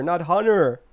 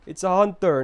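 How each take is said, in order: First: Hunter said hunner; T dropped. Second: Hunter with a clear T. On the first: Mocking Americans, hunter said with no T. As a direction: swallow the T in hunter. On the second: Correcting chat, hunter with a clear T. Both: Shown as a demonstration.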